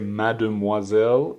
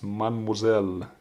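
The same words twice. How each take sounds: First: The vowel after 'mad' is fully pronounced. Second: The vowel after 'mad' is dropped. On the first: The speaker calls it wrong. "You don't say mademoiselle" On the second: The speaker calls it right. "it's pronounced mademoiselle"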